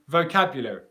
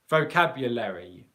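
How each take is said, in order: First: No vowel is heard after the L. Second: A weak vowel is heard after the L. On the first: "sometimes we will drop that syllable. So instead, we'll say" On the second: "after the L sound, there's a, a schwa sound which is an unstressed uh, uh, uh sound"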